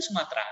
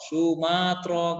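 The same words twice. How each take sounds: First: Said in the usual way. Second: "Sumatera" slowly as Su-maaa-tro; over-literal Arabic reading. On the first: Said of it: "Bilang aja Sumatera langsung". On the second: Shown as a demonstration. Teacher imitates misreading from long mim, drawn-out "Sumaatro". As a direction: drag the maa in "Sumatera", ending in tro. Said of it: "Karena mimnya panjang".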